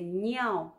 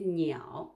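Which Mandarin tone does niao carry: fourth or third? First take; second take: fourth; third. First: The syllable carries the fourth tone. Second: The syllable carries the third tone. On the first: It refers to urine. "on met le quatrième ton" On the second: It means bird. "on met le troisième ton"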